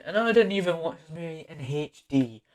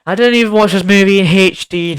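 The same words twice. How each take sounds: First: Said in the usual way. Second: Louder, higher insistent repeat; repeating the point louder to stress it; emphatic repeat. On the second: Real, not acted. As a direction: say it again with a push.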